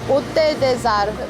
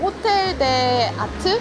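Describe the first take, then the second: First: It is said with French linking and silent t. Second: It is said unlinked with English-style final t. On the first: "불어라 너무 발음이 어려워요" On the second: "여기서는 그냥 호텔 데 아트 이렇게 얘기하는 것 같아요"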